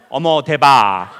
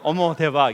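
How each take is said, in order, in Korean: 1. 목을 꽉 조이며 말해요. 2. 열리고 띄운 숨으로 말해요. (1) "왜 목을 이렇게 쪼여요?" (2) "저는 호흡을 띄워서"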